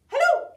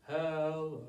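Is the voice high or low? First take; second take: high; low. First: It is said in a very high voice. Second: It is said in a very low voice.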